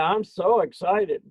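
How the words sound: It sounds sarcastic and mocking. The speaker is not excited at all.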